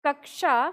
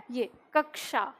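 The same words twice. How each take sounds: First: कक्षा read plainly as kakshaa; exam word read. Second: कक्षा said softly and slowly as kakshaa; slow, quiet कक्षा with a clear ksh; correct pronunciation. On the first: Teacher reads the exam word to students, plainly. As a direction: read कक्षा as it appears in the question. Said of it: "शब्द था". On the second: Teacher models the exam word for students, slow and soft. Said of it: "इसकी उच्चारण क्या है". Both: Shown as a demonstration.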